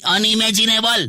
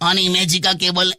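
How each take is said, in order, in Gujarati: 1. શબ્દનો અંત 'nable' જેવા અવાજથી થાય છે. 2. શબ્દનો અંત 'ka cable' જેવા અવાજથી થાય છે.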